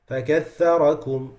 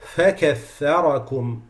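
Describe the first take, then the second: First: The f sound is weak and barely heard. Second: The f sound is clear and distinct. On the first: The speaker calls it wrong. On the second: The speaker calls it right.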